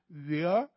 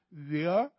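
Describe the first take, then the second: First: It is said in a Beijing-style accent. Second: It is said in a Beijing-style accent.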